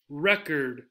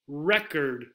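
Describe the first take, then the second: No difference in how they are said.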